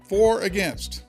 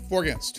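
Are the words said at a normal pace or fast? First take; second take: normal; fast. First: The words are said at a normal pace. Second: The words are said quickly, run together.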